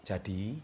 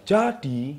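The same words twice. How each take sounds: First: Said in the usual way. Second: "jadi" stretched and pitched up, louder; emphatic intonation. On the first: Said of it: "Beda sama". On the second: Shown as a demonstration. Speaker coach demonstrating intonation to viewers, emphatic "jadi". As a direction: give "jadi" a strong, lifted push. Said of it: "ya contohnya".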